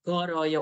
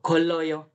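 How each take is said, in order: First: The middle consonant is a flapped R sound. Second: The middle consonant is a clear L sound. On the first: The speaker calls it right. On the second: The speaker calls it wrong.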